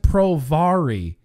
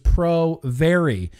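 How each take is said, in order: First: The 'vary' part uses a different vowel than 'variable'. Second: The 'vary' part sounds as in 'variable'. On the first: The speaker calls it wrong. "It wasn't Pro-Vary" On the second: The speaker calls it right. "It was Pro-Vary"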